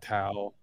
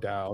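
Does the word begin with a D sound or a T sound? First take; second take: T; D. First: The word begins with a T sound. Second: The word begins with a D sound. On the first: "you can say Tao" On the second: "You just pronounce the T with a D"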